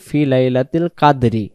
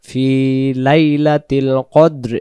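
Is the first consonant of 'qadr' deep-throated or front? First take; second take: front; deep. First: The word begins with an ordinary front k. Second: The word begins with a deep, back-of-throat q. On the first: The speaker calls it wrong. "কাদরি কাদরি যদি পড়ি তাহলে এখানে এই কব অক্ষরটার পরিবর্তে এখানে কাব অক্ষর উচ্চারণ হবে" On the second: The speaker calls it right. "প্রথম আয়াতের অংশ বেশি হবে ফি লাইলাতিল কদ্র"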